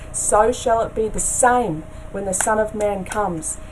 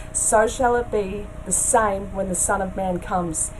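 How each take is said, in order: The two takes are said the same way.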